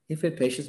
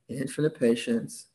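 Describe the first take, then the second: First: The phrase is said quickly and mechanically. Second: The phrase is said very slowly and deliberately. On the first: The words are repeated by rote without feeling. The speaker calls it wrong. "Sometimes it just became a parrot talking" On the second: The words are meant sincerely and authentically. The speaker calls it right. "I had to say it really slowly"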